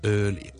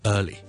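First: Hong Kong accent, with the lips pushed forward. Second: British accent, with the lips kept neutral. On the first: "我哋香港人通常咧系early" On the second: "个嘴唇嘅动作係neutral 嘅"

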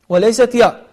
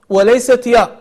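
Both takes have the same delivery.

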